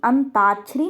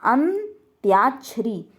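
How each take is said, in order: First: अंताक्षरी without y, "an-taa-chhari"; plain "taa" in the middle of अंताक्षरी; mispronunciation demo. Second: अन्त्याक्षरी slowly with a "tyaa" glide; correct pronunciation. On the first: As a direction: drop the y glide in अंताक्षरी. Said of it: "नहीं". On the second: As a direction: split अन्त्याक्षरी as "an... tyaa-chhari". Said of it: "ताक्षरी नहीं होता". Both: Shown as a demonstration.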